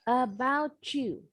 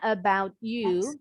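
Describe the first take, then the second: First: The t and y blend into a ch sound. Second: The t and y stay separate with a break. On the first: "ini bunyinya jadi C H" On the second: "Boleh sih bilangnya about you, tapi supaya nggak ada jeda"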